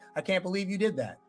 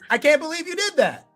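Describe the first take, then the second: First: It is said flatly, without emotion. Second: It is said with excited, happy emotion.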